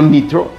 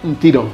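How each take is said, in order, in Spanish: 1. El nombre empieza con 'Ni', una vocal después de n. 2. El nombre empieza con 'Nt', no hay vocal después de n. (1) "no Nitro" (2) "sino Ntiro"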